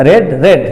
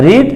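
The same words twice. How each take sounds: First: রেড with a short "e", like red; রেড, short open "e" each time; past-tense pronunciation. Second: রিড with a long "ee", like reed; রিড, the "ee" vowel held clearly; present-tense pronunciation. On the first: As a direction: say রেড to rhyme with bed. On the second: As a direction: say রিড to rhyme with need. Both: Shown as a demonstration. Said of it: "উচ্চারণটা আলাদা".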